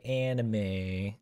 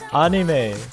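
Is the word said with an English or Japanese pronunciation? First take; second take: English; Japanese. First: It is said with English-style vowels. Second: It is said with Japanese-style pure vowels. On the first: "Do you guys say anime, like anime" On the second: "I say anime like a real Japanese person"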